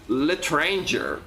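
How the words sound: It is said with an American English accent. "Americans pronouncing words from other languages"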